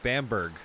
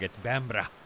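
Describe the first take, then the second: First: The name ends with a full 'berg' sound. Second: The name ends with a short 'bra' sound. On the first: The speaker calls it wrong. "I didn't know I was saying it wrong" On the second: The speaker calls it right. "it's not called Bamberg, it's Bambra"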